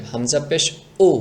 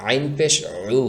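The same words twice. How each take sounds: First: Clean glottal catch on উ, no squeeze; bump without pressing. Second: আইন and উ with pressure inside the throat; pressed in throat. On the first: Teacher contrasts with throat letter, bumped unpressed উ. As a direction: knock lightly into উ with throat unpressed. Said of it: "কোনো চাপ দেওয়া যাবে না". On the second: Teacher explains the letter, squeezed throaty উ. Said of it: "গলার ভিতরে চাপ দিয়ে". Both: Shown as a demonstration.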